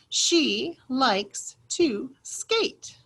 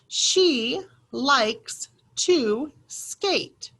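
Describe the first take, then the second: First: The sentence is read at a faster pace. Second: The sentence is read at a slower pace. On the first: "that second time we read it a little bit faster" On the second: "the first time we read it is practice"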